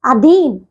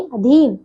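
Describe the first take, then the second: First: अधीन with a long first vowel, "aa-dheen"; drawn-out wrong अधीन, starting "aa"; mispronounced अधीन. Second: Said in the usual way. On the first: Shown as a demonstration. Teacher shows pupils the error, long "aa" opening अधीन. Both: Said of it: "नहीं".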